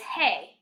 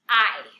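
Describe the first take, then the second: First: It sounds like the English word hey. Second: It sounds like the English word eye. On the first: The speaker calls it wrong. "A lot of you are saying it as hey" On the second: The speaker calls it right. "It's actually pronounced I"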